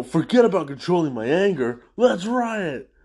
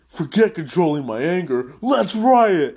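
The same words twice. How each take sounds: First: Louder, riot jumps high; mock rally yell. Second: Builds to a high, loud shout on riot; mock gleeful yell. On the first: The tough prisoner quitting calm to join the riot. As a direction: toss off the anger control with a lift. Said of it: "the guy follows up and goes". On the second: The tough prisoner giving up on calm, shouting for a riot. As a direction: fling the self-control away and yell. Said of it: "the guy from earlier".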